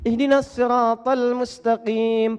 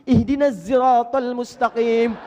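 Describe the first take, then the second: First: Sirat begins with a heavy, emphatic s sound. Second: Sirat begins with a buzzing z sound. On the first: "pakai sad" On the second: "As-sahih, pakai zai"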